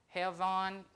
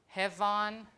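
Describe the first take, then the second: No difference in how they are said.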